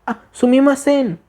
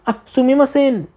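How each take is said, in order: No difference in how they are said.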